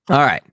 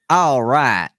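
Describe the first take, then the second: First: It is said in a plain, normal way. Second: It is said with an exaggerated, embellished twang.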